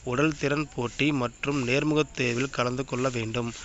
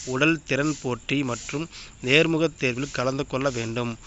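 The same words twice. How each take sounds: Both takes have the same delivery.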